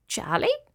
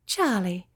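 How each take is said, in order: First: Tiny, very high shy cricket voice; small, high-pitched young creature; little cricket. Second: Measured, kindly spider voice. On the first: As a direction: answer softly in a high little voice. Little cricket gives his name. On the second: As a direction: take in the name calmly. Spider repeats the cricket's name. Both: Acted.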